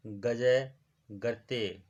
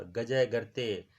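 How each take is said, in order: First: गजय गर्ते drawn out slowly, each syllable clear; slow dictation. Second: Said in the usual way. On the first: Shown as a demonstration. Teacher repeats phrase slowly for students to copy. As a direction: spell out गजय गर्ते slowly so they can write it. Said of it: "teacher repeats phrase slower". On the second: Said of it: "teacher repeats phrase for class".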